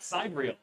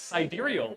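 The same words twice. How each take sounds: First: The word is said with the rejected pronunciation. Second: The word is said with the accepted pronunciation. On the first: The speaker calls it wrong. "and not sidereal" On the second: The speaker calls it right. "it is pronounced sidereal"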